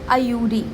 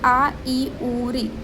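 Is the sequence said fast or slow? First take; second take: fast; slow. First: The four sounds are run together quickly. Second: The four sounds are said slowly and separately.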